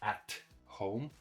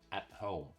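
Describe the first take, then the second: First: The T is fully released. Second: The T is held and not released. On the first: The speaker calls it wrong. "not at home" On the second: The speaker calls it right. "When we have a stop T"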